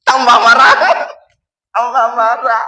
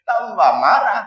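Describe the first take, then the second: First: Loud, exasperated burst on "marah"; angrier wife. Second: Said in the usual way. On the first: Pretend. Wife getting angrier when husband quotes the hadith, loud burst. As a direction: blast back like a wife even angrier. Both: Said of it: "kalau sekarang ibu-ibu tiba-tiba marah".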